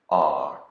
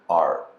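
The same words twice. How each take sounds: First: A soft British R sound. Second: An American R from the back of the throat.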